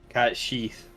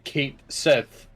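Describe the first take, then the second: First: It sounds like 'cat sheath'. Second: It sounds like 'kate sith'. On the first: This is the intended pronunciation. "it is supposed to be Cat Sheath" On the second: This is how most readers would guess it. "you'd pronounce it Kate Sith"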